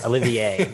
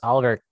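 First: The name is said as Olivier. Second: The name is said as Oliver. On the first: The speaker calls it right. "Olivier, not Oliver" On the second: The speaker calls it wrong. "But not the first"

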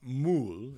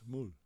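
First: The M at the start is full and strong. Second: The M at the start is soft and light. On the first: The speaker calls it wrong. "It's not mul" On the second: The speaker calls it right. "It's a lot softer"

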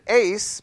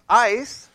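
First: The vowel sounds like the one in 'ace'. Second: The vowel sounds like the one in 'ice'. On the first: The speaker calls it wrong. "some people pronounce it ace" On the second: The speaker calls it right. "but it's ice"

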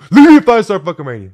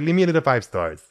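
First: It is shouted in an aggressive tone. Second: It is said in a sweet tone.

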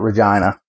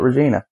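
First: The name is said the Canadian way. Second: The name is said the American way. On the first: This is how locals say it. "the Canadians call it Regina" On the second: This is how visitors read it from the spelling. "for Americans, it looks like Regina, spells like Regina. So a lot of guys just call it Regina"

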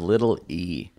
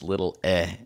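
First: The last word is the long vowel 'ee'. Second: The last word is the short vowel 'eh'. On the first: The speaker calls it wrong. "Call her little E" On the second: The speaker calls it right. "actually, it's little eh. Like you're clearing your throat"

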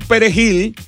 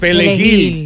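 First: The middle consonant is a Spanish R. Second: The R is replaced with L, Haitian-style.

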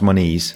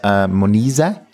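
First: The name ends on a consonant sound. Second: The name ends with an extra vowel syllable. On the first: The speaker calls it wrong. "Not Moniz" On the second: The speaker calls it right. "It's Moniza"

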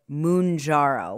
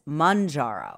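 First: The first syllable sounds like 'moun'. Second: The first syllable sounds like 'man'. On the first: This is how friends say the name. "Albert and Kyle pronounce it Mounjaro, which I prefer" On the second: This is how the TV commercial says the name. "I saw the commercial... On TV. It's Manjaro"

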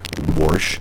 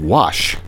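First: The word is said with an added R sound. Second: The word is said without an R sound. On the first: The speaker calls it wrong. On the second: The speaker calls it right. "I don't think there's a fucking R in the word wash"

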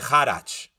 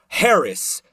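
First: The surname is given its Polish pronunciation. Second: The surname is given an anglicized English pronunciation. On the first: "if they're Polish, they say Haracz. Like that's the Polish pronunciation" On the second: "My name is spelled just like it sounds"

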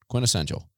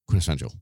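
First: The word is said at a normal pace. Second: The word is said very quickly.

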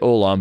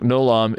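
First: The word begins with a vowel sound. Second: The word begins with a nasal consonant. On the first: This is the usual pronunciation today. "today we'd say Olam" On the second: This follows an older grammar book's pronunciation. "Joseph Smith's Hebrew grammar said this is how you pronounce that word. So he'd put this GN on the front"

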